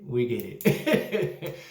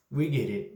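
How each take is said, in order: First: Drawn out slowly through a laugh; slow laughing repeat. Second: Said in the usual way. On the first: Real, not acted. Reviewer repeating to Hustle, slow and laughing. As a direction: drag it out, laughing.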